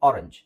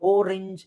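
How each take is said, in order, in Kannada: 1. ಮೊದಲ ಸ್ವರ 'ah' ಶಬ್ದ, ಬಾಯಿ ತೆರೆದಿರುತ್ತೆ. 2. ಮೊದಲ ಸ್ವರ 'oh' ಶಬ್ದ, ತುಟಿ ದುಂಡಗಾಗಿರುತ್ತೆ. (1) "ಆ ಆರೆಂಜ್" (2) "ಓರೆಂಜ್ ಇಲ್ಲ"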